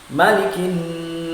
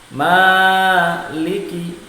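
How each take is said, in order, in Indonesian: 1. Vokal setelah m itu pendek. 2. Vokal setelah m itu panjang. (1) "membaca Maliki ini mimnya dibaca pendek" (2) "maliki mimnya dibaca panjang"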